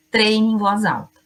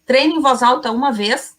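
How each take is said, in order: First: Said in the usual way. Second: Treine em voz alta uma vez asked with a rising question tune; mock doubt, voice lifting at the end; questioning rise. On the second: Shown as a demonstration. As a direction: ask it as a teasing rhetorical question. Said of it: "Não".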